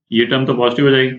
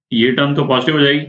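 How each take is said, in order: Both takes have the same delivery.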